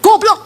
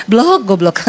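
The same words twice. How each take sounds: First: Angry insult. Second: Smiling insult. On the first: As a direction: spit out Goblok in anger. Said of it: "marah, ngamuk". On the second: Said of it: "Dia tersenyum". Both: Retold or imitated.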